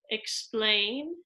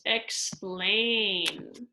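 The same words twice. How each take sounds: First: Said in the usual way. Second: "explain" stretched slowly on the ending; drawn-out rhyme word. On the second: Shown as a demonstration. Teacher showing how endings rhyme, "explain" drawn out slowly. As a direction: draw out the "-ain" of "explain".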